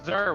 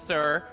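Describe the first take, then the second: First: The name begins with a Z sound. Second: The name begins with an S sound. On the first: The speaker calls it right. "It's Zer with a Z" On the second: The speaker calls it wrong. "No one pronounces Zer's name with an S and says Sir"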